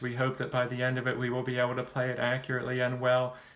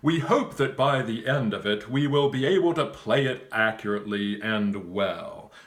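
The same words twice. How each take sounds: First: The voice stays flat on one pitch. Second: The voice varies in pitch and loudness. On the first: The speaker calls it wrong. "if I talk in a monotone" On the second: The speaker calls it right. "You would want to say"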